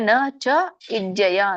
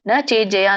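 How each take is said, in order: First: The words are said apart as three pieces. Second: The words are merged into one sound chain. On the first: "ಬಿಡಿಸಿ ಹೇಳ್ಬೋದು" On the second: "ಕೂಡಿ ಹೇಳ್ಬೋದು"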